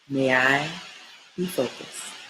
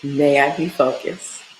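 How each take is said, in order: First: It is said at a softer volume. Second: It is said at a louder volume.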